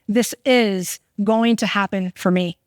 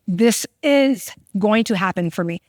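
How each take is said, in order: First: It sounds like a firm, confident statement. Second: It sounds like a firm, confident statement.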